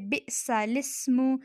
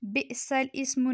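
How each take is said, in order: First: बिसलिस्मु joined, zer under lam flowing into seen; correct reading. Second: बिसल इस्मु split, zer on the alif; the mistaken form बिसल इस्मु, broken in two; wrong reading. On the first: Teacher giving the right joined form. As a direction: say बिसलिस्मु as one word, a bit slow. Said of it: "बल्कि ये बिसलिस्मु". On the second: Teacher showing the common mistake, split apart. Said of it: "बिसल इस्मु नहीं है". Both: Shown as a demonstration.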